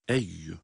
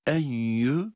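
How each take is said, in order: First: "eyyü" with a clean doubled y; pure y sound. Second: "enyü" with an n hummed through the nose; wrongly nasalised. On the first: Teacher repeating the correct reading, "eyyü" without nasality. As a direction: keep "eyyü" out of the nose, on the y. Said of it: "ya harfinin sesiyle okuyoruz". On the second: Teacher showing the mistake, nasal "enyü". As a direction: push "enyü" through the nose as if it had a nun. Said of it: "genizden ses getirerek sanki bir nun". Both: Shown as a demonstration.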